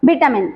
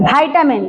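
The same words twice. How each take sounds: First: ଭିଟାମିନ said as "vit-a-min", short i as in "bit"; ଭିଟାମିନ with a short British "vi"; British pronunciation. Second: ଭାଇଟାମିନ said as "vai-ta-min", long "vai" like "vine"; ଭାଇଟାମିନ with the American diphthong "vai"; American pronunciation. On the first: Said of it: "British English.". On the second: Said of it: "American pronunciation ଅନୁସାରେ ଭାଇଟାମିନ". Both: Shown as a demonstration.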